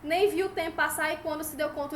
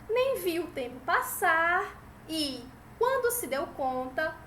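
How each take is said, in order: First: It is read straight through without pausing at commas. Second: It is read with short pauses at each comma. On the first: The speaker calls it wrong. "agora não" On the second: The speaker calls it right. "vírgula, pausa"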